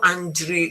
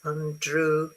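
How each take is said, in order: First: An extra 'e' sound is inserted before the end. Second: The last syllable ends in a plain 'oo' sound. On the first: The speaker calls it wrong. "It's not Andrew" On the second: The speaker calls it right. "It's oo. Okay? Like this"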